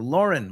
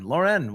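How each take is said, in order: First: "Lauren" with the first syllable stressed. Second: "Lauren" with the last syllable stressed; stress on second syllable. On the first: Offering one way to say the designer's surname, "Lauren" stressed at the front. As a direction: say "Lauren" as LOR-un, second syllable weak. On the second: Offering the other way to say the designer's surname, "Lauren" stressed at the end. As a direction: say "Lauren" as lor-EN, full second vowel. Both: Shown as a demonstration.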